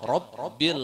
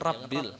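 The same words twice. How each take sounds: First: The first vowel sounds thick, like o. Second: The first vowel sounds thin, like a. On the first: The speaker calls it right. "pakai o" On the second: The speaker calls it wrong. "jangan rabbil"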